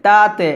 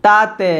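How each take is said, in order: The two takes are said the same way.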